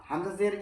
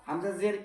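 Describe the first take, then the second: No difference in how they are said.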